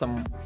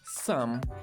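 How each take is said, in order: First: The vowel is short and reduced to schwa. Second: The vowel is full and somewhat open. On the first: The word is said inside a sentence. "reduzido para o fonema schwa... Bem curtinho" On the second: The word is said on its own. "o som dessa palavra sozinha é some... essa letra O, ela é um pouco aberta"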